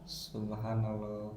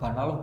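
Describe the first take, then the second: First: It is said slowly and calmly, every syllable clear. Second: It is said too fast, with the start swallowed. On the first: The speaker calls it right. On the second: The speaker calls it wrong. "itu terlalu cepat"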